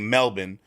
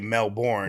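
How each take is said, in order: First: It is said in an Australian accent. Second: It is said in an American accent. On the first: "Australians say" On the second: "if you were to read it with an American accent, you'd say"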